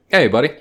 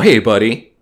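First: It sounds like a relaxed, friendly greeting. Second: It sounds soft and tender, like soothing someone. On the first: Like saying dude, what's going on. "Different inflections here" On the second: Like patting a dog or comforting a child. "That's like, who's a good boy?"

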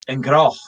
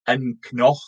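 First: The consonant after the C is an R. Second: The consonant after the C is an N. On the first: The speaker calls it right. "it just turns into an R because it's easier to say" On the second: The speaker calls it wrong. "rather than AnCnoc"

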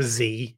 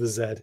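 First: The letter is said as American 'zee'. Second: The letter is said as British 'zed'.

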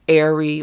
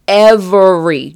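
First: The word is shortened with syllables dropped. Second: Every syllable of the word is pronounced. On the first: Everyday casual country speech. "usually we say like airy or Irvery" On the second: The speaker really means it. "You have to pronounce all the syllables when you really mean it"

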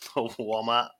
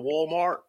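First: Walmart is said in an imitated Boston accent. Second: Walmart is said in a non-Boston accent. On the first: "He was making fun of me talking in our accent" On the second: "he usually says it like"

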